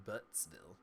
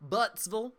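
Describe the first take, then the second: First: Said in the usual way. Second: High, loud Southern "Buttsvul?"; loud Southern twang, pitched up; Southern accent. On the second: Acted. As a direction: say it as a questioning Southerner, ending swallowed to "-vul". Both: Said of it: "since I did it with that accent".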